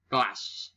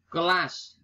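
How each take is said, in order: First: "kelas" squeezed to klas; nonstandard pronunciation. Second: "Kelas" in two syllables, high; standard pronunciation. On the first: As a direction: say "kelas" as one syllable. (ucapkan "kelas" menjadi klas) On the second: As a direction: say ke-las for "Kelas". (ucapkan "Kelas" dua suku kata) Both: Shown as a demonstration.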